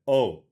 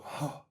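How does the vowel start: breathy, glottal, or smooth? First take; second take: smooth; breathy. First: The vowel starts smoothly with no pop or breath. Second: The vowel starts with a puff of breath. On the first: "the modal onset" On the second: "The aspirate onset is if you go"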